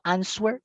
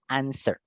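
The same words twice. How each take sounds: First: A W sound is pronounced after the S. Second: No W sound is heard after the S. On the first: The speaker calls it wrong. "Yo no digo answer" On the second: The speaker calls it right. "sino answer"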